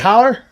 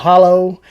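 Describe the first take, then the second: First: The word ends with an 'er' sound. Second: The word ends with an 'oh' sound. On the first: "they'll say holler" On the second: "instead of a hollow"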